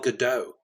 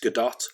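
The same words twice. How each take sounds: First: The final T is silent, French style. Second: The final T is clearly pronounced. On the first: The speaker calls it wrong. "we say Gal Gadot, but it's not" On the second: The speaker calls it right. "It's Gadot"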